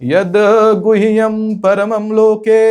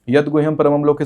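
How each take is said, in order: First: The final vowel is stretched out long. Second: The final vowel is kept short and even. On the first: The speaker calls it wrong. "तो के जो लंबा जा रहा है" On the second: The speaker calls it right. "दुर्गा कवच ऐसे शुरू होता है"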